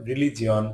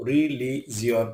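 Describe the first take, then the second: First: Said in the usual way. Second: "religion" broken into separate syllables; "religion" pulled apart for learners; split syllables. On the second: Shown as a demonstration. Word split by syllable, then whole.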